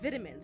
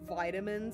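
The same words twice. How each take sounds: First: It is said with a British pronunciation. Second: It is said with an American pronunciation. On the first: "Why are you saying it like a Brit?" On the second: "Don't you Americans say like vitamins"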